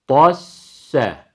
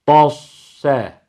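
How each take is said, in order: First: The s sound is thin and plain. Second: The s sound is thick and emphatic. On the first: The speaker calls it right. "hem birinci sakin sin harfi hem de ikinci fethalı sin harfi ikisi de ince olacak" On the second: The speaker calls it wrong. "birinci sin harfi sat harfine dönüşmeyecek. Bu hatalı bir okuyuş. Dosse değil"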